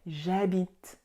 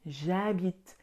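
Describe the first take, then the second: First: Je loses its vowel and joins habite. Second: The same.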